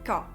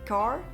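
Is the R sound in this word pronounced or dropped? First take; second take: dropped; pronounced. First: The R at the end is dropped. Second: The R at the end is pronounced. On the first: "les R en fait ne sont pas forcément prononcés" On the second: "vous n'allez pas dire car"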